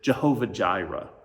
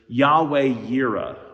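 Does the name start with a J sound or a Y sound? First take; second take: J sound; Y sound. First: Both words begin with a J sound. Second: Both words begin with a Y sound.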